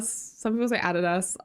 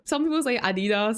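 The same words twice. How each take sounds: First: Adidas said as ADD-ih-dass, stress on the first syllable, short a's; showing how she says Adidas, ADD-ih-dass; own pronunciation. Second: Adidas said as AH-dee-dah, stress on the first syllable; showing the other way to say Adidas, AH-dee-dah; other pronunciation. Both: Shown as a demonstration. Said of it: "Is that how Adidas pronounce in Oz?".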